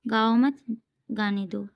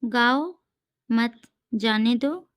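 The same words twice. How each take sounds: First: गाओ मत together, then गाने दो; pause after मत. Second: गाओ alone, rising, then मत जाने दो; pause after गाओ. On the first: Teacher reads second version of own example, pausing after मत. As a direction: run गाओ into मत, break before गाने दो. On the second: Teacher reads own comma example, pausing after गाओ. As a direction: break clearly after गाओ. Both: Shown as a demonstration. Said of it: "इस तरीके से मैंने भी कुछ".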